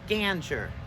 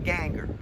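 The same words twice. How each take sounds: First: It starts with a soft G sound. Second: It sounds like anger with a G before it. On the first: "My mother pronounced it with a soft G" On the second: "I used the hard G all the way ... it's anger with a G in front of it"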